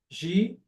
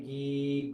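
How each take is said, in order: First: The consonant is a soft palatal zh sound. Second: The consonant is a hard g from the throat. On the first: "ele vai lá para o céu da boca" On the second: "tá tudo aqui"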